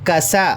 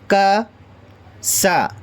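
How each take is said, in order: First: The two syllables are joined without any pause. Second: The two syllables are said with a pause between. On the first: "फिर एक साथ बोलें" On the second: "अलग अलग पढ़ें, का पढ़कर रुक जाएं"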